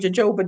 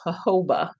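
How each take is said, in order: First: The word begins with a J sound. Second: The word begins with an H sound. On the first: "I kind of like saying jojoba" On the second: "it's pronounced jojoba. The J is an H"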